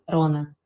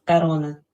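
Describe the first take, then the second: Both takes have the same delivery.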